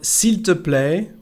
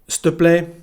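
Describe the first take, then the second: First: All three syllables are fully pronounced. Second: The first words are squeezed into one syllable. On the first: "Instead of s'il te plaît" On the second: "we sometimes say s'te, s'te plaît"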